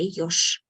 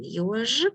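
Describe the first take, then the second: First: The word ends with a voiceless sh sound. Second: The word ends with a voiced zh sound. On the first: "when I speak fast, I will say yosh" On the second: "I pronounce it like clearly for you"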